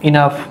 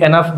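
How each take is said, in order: First: The first vowel sounds like 'i' in 'bit'. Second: The first vowel sounds like 'e' in 'bed'. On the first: The speaker calls it right. "ইনাফ হয়" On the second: The speaker calls it wrong. "অনেকে এনাফ বলেন, ভুল উচ্চারণ"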